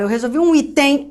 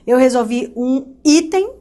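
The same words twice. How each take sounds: First: "item" wrongly stressed on its final syllable, i-TEM; stress on last syllable. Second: "item" stressed on its first syllable, drawn out slowly. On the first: Teacher offering students the wrong option, "item" stressed on TEM. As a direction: shift the weight of "item" onto TEM. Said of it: "Bom, eu falo". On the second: Teacher testing the tonic syllable aloud, "item" stressed on the I. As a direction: lean on the I of "item", slow and loud enough to compare. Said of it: "Qual é a sílaba tônica?". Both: Shown as a demonstration.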